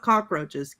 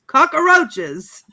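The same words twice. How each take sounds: First: Said in the usual way. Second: Cockroaches yelled high with an added "uh" after "cock"; extra-syllable cockroaches. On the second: Shown as a demonstration. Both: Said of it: "Not cockroaches, cockroaches".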